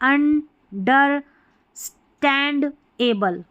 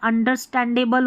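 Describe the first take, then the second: First: The word is said slowly, broken into parts. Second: The word is said quickly in one go. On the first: "धीरे धीरे, तोड़ के पढ़ेंगे" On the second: "फटाफट पढ़ दी"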